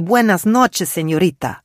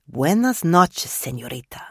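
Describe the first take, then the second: First: Bright, raised Buenas noches with a Spanish lilt; cheerful waiter welcoming a guest; Spanish waiter greeting. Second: Spanish waiter greeting. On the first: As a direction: Buenas noches called out higher and louder, Señorita dropping back. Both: A narrator's reading.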